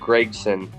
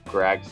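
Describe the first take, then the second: First: The first vowel sounds like the 'e' in 'beg'. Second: The first vowel sounds like the 'a' in 'bag'. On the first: This is how the family says the name. "I think it's Gregson" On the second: This is how many other people say the name. "a lot of people say Gragson"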